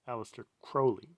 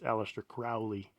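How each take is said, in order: First: The first syllable of Crowley sounds like crow. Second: The first syllable of Crowley does not sound like crow. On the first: "it's pronounced Crowley, like as in the, the bird, the crow" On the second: "Many people pronounce it Aleister Crowley"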